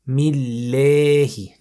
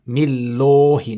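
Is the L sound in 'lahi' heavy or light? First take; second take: light; heavy. First: The L is light, with lips spread sideways. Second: The L is heavy, with a full rounded mouth. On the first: The speaker calls it right. "we say Millahi" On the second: The speaker calls it wrong. "not Millahi, no"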